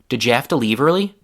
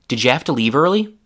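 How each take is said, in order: First: "Did" has a reduced schwa vowel. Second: "Did" has a full short i vowel. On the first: "I replaced that short I with a lazy schwa sound" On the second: "I said did with a short I sound like in big"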